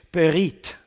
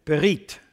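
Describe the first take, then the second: First: Berit said the Hebrew way, stress on the last syllable; Hebrew pronunciation. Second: Berit said alone, slower, with a rising tune; repeated Hebrew word. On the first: Preacher teaching the Hebrew word to the congregation, careful pronunciation. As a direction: say berit as buh-REET. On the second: Preacher drilling the Hebrew word for listeners, rising repeat. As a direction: repeat Berit as buh-REET so they can copy it. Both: Shown as a demonstration. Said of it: "Actually, in Hebrew".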